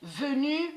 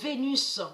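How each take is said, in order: First: The final s is silent. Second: The final s is sounded aloud. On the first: This is how it is really said. The speaker calls it right. "On sait très bien que ça se dit. Venu" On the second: This is how others say it. The speaker calls it wrong. "on a constaté qu'ils disent Vénus"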